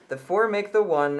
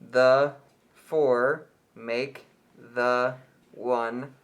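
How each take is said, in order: First: It is read at normal speed. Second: It is read slowly.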